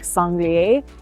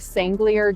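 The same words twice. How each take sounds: First: The name is said with a French-style pronunciation. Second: The name is said with an English-style pronunciation. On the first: This is closer to how the name is really pronounced. "but it's something like" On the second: This is the speaker's habitual everyday way of saying it. "I always say"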